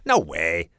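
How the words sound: It sounds doubtful and unconvinced. The speaker does not believe it. "Maybe I don't believe Jenny, so I could say"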